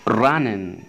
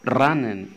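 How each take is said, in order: No difference in how they are said.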